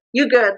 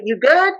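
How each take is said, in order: First: "You good?" with stress on "You" and falling on "good", a statement; flat reassurance "You good?" falling on "good". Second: "You good?" with the pitch climbing on "good", a real question; caring "You good?" that rises on "good"; rising question. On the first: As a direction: say "You good?" dropping down, meaning you're fine. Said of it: "You're fine". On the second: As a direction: ask "You good?", lifting "good" at the end. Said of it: "question mark". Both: Shown as a demonstration.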